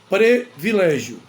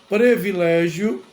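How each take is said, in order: No difference in how they are said.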